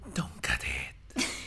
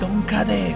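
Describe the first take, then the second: First: It is said in a soft whisper. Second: It is said in a loud, normal voice.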